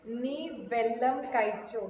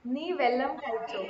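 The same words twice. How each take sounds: First: नी वेलम काइचो, slow, वेलम with long ल; drawn out Malayalam try. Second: नी वेलम काइचो, वेलम stressed, slow; Malayalam phrase. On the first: (धीमा मलयालम उच्चारण) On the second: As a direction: practise the Malayalam line. (Malayalam वाक्य का अभ्यास) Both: Shown as a demonstration. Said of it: "इसका pronunciation हम बराबर कर रहे हैं क्या".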